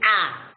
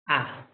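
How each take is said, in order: First: The sound is said loudly. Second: The sound is said softly. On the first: The speaker calls it wrong. "It cannot be ah, loud" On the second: The speaker calls it right.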